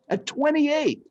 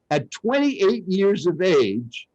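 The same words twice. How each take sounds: First: "twenty-eight" said much higher, as an astonished echo; stressed echo. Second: Said in the usual way. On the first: A narrator's reading. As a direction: hit "twenty-eight" high to stress how late it was. Repeats age for emphasis.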